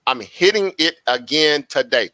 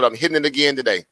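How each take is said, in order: First: Each word spaced out for emphasis; measured, emphatic restatement; slow, deliberate. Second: Said in the usual way. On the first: Real, not acted. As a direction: drive it home slowly, word by word. Repeats it slowly for emphasis.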